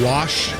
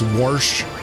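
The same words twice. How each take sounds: First: The word is said without an R sound. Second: The word is said with an added R. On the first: "instead of wash" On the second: "They add an R for some reason"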